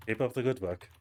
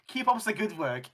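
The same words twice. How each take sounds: First: Put-on German accent. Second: GM imitating a German accent, a bit louder; parroting "Keep up the good work" in a jokey German accent; mock German accent. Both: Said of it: "he went, went German".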